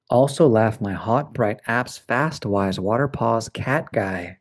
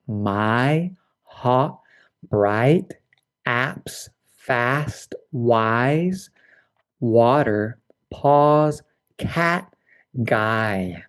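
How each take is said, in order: First: Quicker run-through. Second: Each word set apart, vowels distinct; clear vowels, slow. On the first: Teacher repeating the vowel list faster. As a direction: run the words in pairs. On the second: Teacher modelling clear ah and I vowels. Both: Shown as a demonstration. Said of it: "being very clear".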